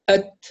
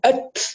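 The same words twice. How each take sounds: First: The final t releases with a light, clean breath. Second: The final t releases with a hiss like s. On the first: The speaker calls it right. "ضغط معتدل" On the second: The speaker calls it wrong. "المبالغة فيها أت كأنها حرف سين"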